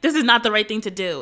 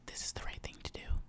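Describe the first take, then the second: First: It is said loudly and fearfully. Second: It is said quietly and calmly.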